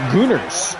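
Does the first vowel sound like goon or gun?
goon. The first vowel is long, as in goon. "in the U K, they pronounce it Gooners"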